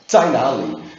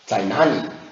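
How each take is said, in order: First: It is said in standard Mandarin. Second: It is said in a Guiyang accent.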